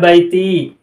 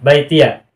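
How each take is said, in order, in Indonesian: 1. Kata ini berakhir dengan bunyi 'ee' biasa. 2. Kata ini berakhir dengan tambahan bunyi 'ya'. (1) "semula bacanya adalah baiti" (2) "bacanya difathahkan"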